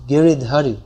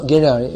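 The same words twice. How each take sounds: First: Giridhari in four full syllables with a clear dh; correct Giridhari. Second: Giriyai with no dh sound; wrong form Giriyai. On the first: Teacher correcting the name, Giridhari said in full. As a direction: sound every syllable of Giridhari. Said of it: "it's not Giriyai, it's Giridhari". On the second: Teacher showing the wrong name, Giriyai run together. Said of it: "actually it's not Giriyai". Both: Shown as a demonstration.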